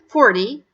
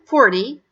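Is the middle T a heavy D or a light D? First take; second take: light D; light D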